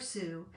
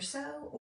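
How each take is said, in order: First: The vowel sounds like the one in 'blue'. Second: The vowel sounds like the one in 'go'. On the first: "I pronounce it Sue because my name is [name]" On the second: "you could pronounce that either so or Sue"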